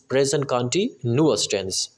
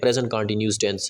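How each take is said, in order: First: Continuous ends in a 'nyoo-us' sound. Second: Continuous ends in a short 'nus' sound. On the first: The speaker calls it right. "इसकी ठीक pronunciation जो होती है वो होती है present कंटिन्यूअस" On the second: The speaker calls it wrong. "अक्सर students इसको इसकी प्रोनाउंसिएशन कंटिन्यूस बोलते हैं"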